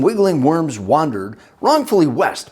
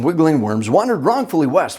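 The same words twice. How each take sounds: First: It is said at normal speed. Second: It is said very fast.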